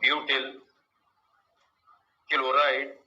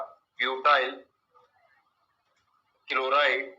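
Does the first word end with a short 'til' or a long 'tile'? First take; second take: short 'til'; long 'tile'. First: The first word ends with a short 'til'. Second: The first word ends with a long 'tile'.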